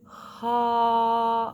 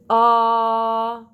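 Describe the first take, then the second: First: The vowel starts with a breathy puff of air. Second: The vowel starts with a hard, forced catch. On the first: "not ha of an aspirate onset" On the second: "or the forced sound of glottal, which would be ah"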